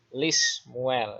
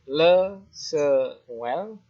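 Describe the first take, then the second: First: The preposition has an i vowel. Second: The preposition has a short e vowel. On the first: The speaker calls it right. "tapi Lismuel ya kepada Samuel" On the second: The speaker calls it wrong.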